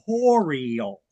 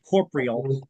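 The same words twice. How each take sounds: First: The 'o' sound after 'corp' is pronounced. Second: The 'o' sound after 'corp' is dropped. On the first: The speaker calls it right. "there's an extra O in there. It's actually" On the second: The speaker calls it wrong. "A lot of people say corporeal"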